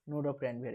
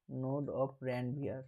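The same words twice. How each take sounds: First: Said in the usual way. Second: Node of Ranvier stretched out very slowly, word by word; slow drawn-out term. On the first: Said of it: "teacher repeats the term". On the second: Shown as a demonstration. Teacher to students, naming the neuron gap: very slow. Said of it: "teacher drawing out the term".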